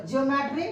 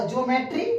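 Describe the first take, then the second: First: "ज्योमेट्री" with an i glide, jio-metri; teacher's corrected "ज्योमेट्री", jio at the start; corrected pronunciation. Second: "ज्योमेट्री" run together as jo-metri; slightly misspoken "ज्योमेट्री", starting jo; slip in pronunciation. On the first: Shown as a demonstration. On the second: Real, not acted. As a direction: say "ज्योमेट्री" without the i glide after j. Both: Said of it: "sorry".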